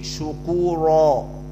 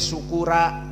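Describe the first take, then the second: First: The r and final vowel sound heavy and full. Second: The r and final vowel sound light and thin. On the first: The speaker calls it right. "harus tafkhim" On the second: The speaker calls it wrong. "Tidak boleh"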